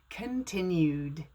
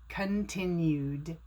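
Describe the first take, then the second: Both takes have the same delivery.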